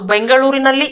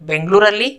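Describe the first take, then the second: First: All syllables are pronounced in full. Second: A middle syllable is skipped, shortening it. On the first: This is the written or formal form. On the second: This is the casual spoken form.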